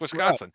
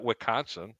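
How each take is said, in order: First: The S in the middle is pronounced. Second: The S in the middle is silent. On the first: The speaker calls it right. "It's Wisconsin" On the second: The speaker calls it wrong. "The S isn't silent. It's not Wisconsin"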